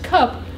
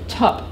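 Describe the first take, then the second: First: The word begins with a K sound. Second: The word begins with a T sound. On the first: This is the adult form. "that an adult in English would say as cup" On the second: This is the child's form. "the child produced tup. The K merged with the child's T"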